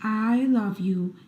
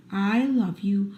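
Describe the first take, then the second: No difference in how they are said.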